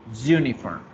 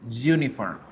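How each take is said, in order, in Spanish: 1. La palabra empieza con un sonido de y. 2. La palabra empieza con un sonido de y.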